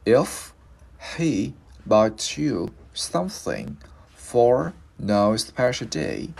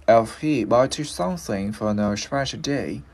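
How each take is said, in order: First: "If... he... bought you something..." with a pause after each piece; slow, louder dictation-like teaching model; slow word by word. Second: Slowish model run through in one phrase; linked full sentence. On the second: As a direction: join "if he bought you something for no special day" without pauses. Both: Shown as a demonstration. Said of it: "bây giờ mình lựa cái này".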